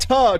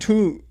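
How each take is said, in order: First: The syllable has a short, reduced 'uh' vowel. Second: The syllable has a full, long 'oo' vowel. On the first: The speaker calls it wrong. "Not ta" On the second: The speaker calls it right. "the phonetic spelling is T O O L A Y N"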